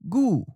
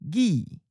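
First: The vowel is the u version. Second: The vowel is the i version. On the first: "then followed it with the common north or the seacoast leaning accent" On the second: "We'll first read the common south or inland leaning pronunciation"

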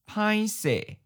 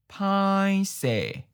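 First: It is said at normal conversational speed. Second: It is said slowly and drawn out. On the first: "Once natural speed" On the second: "and then slow"

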